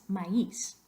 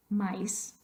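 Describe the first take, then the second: First: "maíz" in two syllables, rising on the í. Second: "maíz" squashed to sound like English "mice"; one-syllable MAÍZ. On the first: Teacher gives the word for corn, "maíz" in two syllables. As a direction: break "maíz" apart as ma-EES. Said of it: "Queremos dos sílabas". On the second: Teacher shows what we don't say, "maíz" as one syllable. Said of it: "We don't want to say mice". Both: Shown as a demonstration.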